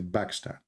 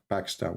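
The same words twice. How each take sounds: First: The word begins with a b sound. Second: The word begins with a p sound. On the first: "we say" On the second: "in Arabic, we don't have P. So we don't say like"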